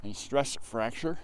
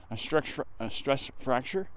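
First: Slower, carefully articulated "A stress fracture"; slow careful retake. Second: Words slurred by a numb mouth; stumbling over the words, mouth too cold. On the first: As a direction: say "A stress fracture" slowly and deliberately to get it out clearly. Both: Real, not acted. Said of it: "my mouth is so cold I can't even speak".

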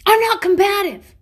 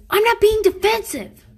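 First: High, loud defensive yell of the wrong word; wrong line, yelled. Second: High, loud indignant yell; defensive yell. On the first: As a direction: yell it the wrong way, saying "combative". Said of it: "Or, "I'm not," oh, that's what she says. I'm sorry. That's not right". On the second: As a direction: shout it back defensively. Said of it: "But she yells it, obviously, defensively". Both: Retold or imitated.

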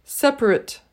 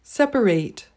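First: "separate" squeezed to "seprit", weak final syllable; adjective separate. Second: "separate" with a full final "ate" like "sep-a-rate"; verb separate. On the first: Teacher contrasts the adjective "separate", said as "seprit". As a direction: reduce "separate" to two beats, "sep-rit". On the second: Teacher contrasts the verb "separate", clearly ending in "rate". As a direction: give "separate" three syllables ending in "rate". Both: Shown as a demonstration.

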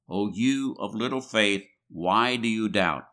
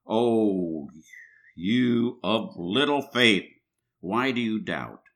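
First: Said in the usual way. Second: Slow, drawn-out rebuke; gently chiding Jesus. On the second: A narrator's reading. Jesus catching sinking Peter, slowly chiding him. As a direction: lean on little, lightly scolding. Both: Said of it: "said to him".

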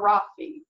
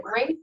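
First: Rafi with an added ee ending; two-syllable Rafi. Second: Rafe said as one syllable. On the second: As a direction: say Rafe to rhyme with safe. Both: Shown as a demonstration. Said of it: "how do you pronounce".

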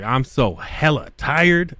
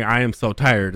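First: "I'm so hella tired." slowed, mocking "hella" as filler. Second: Said in the usual way. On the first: Shown as a demonstration. Mocking how Seattle people add "hella", said slowly. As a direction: drag out "hella" to mock the Seattle slang. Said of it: "it's like". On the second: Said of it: "instead of saying".

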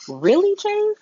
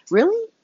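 First: High breathless whisper; whispered disbelief. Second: High rising disbelief; a disbelieving high "Really?"; incredulous. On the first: Vlogger mocks Chase's late realization, whispered. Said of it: "whispered follow-up". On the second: Vlogger reacting to a character's news, incredulous. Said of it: "incredulous rising "Really?". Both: Real, not acted.

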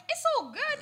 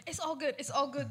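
First: Much higher-pitched, insistent brush-off; overdone reassurance. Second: Said in the usual way. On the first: Retold or imitated. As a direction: retell it as a high, too-cheery cover-up. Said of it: "I'm like". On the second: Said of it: "Ich steh auf, ich so".

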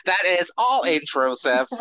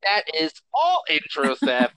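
First: Stiff alien pronouncement, repeated; Coneheads voice. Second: Coneheads voice. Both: Acted. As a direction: announce it like a formal alien. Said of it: "No more alien voice".

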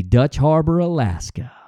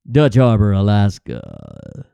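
First: Said in the usual way. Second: Deep, dramatic documentary announcer, drawn out; TV narrator voice. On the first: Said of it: "Dutch Harbor, Alaska. (repeated as announcer)". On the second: Pretend. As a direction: drop it low like a reality TV narrator. Mimics Deadliest Catch narrator.

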